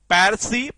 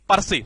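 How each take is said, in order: First: The first vowel sounds like 'air'. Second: The first vowel sounds like 'er'. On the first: The speaker calls it wrong. "Sorry पैरसी नहीं" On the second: The speaker calls it right. "पर्सी है"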